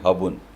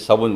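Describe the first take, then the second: First: The word begins with an h sound. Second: The word begins with an s sound. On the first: This is how the people of Barmer and Jaisalmer say it. "वो बोलेंगे हाबुन" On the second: This is the usual pronunciation. "आप बोलोगे"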